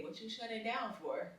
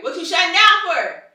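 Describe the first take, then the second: First: Quiet and gentle, much softer; same question, now gentle and quiet; softer repeat of the question. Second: High and loud, pressing; loud version of the question; loud demanding question. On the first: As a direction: ask it again softly. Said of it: "So then I say". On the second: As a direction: demand it loudly, exasperated. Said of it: "And I'm like". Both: Retold or imitated.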